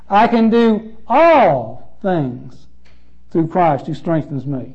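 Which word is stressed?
all. The stress falls on the word all.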